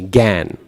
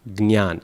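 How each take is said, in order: First: It begins with a plain g, no y or nasal. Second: It begins with g, then n, then y. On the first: This is how Bengali speakers say it. "It's just the g, gan" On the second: This is how South Indians say it. "the South Indian pronunciation is probably the closest"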